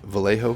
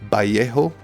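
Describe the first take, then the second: First: It is said with an English pronunciation. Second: It is said with a Spanish pronunciation. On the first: The speaker calls it wrong. "I'm going to keep going with Vallejo, which I think is a reasonable compromise" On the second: The speaker calls it right. "the correct pronunciation of this paint brand is Vallejo. It contains not one, not two, but three tricks of Spanish"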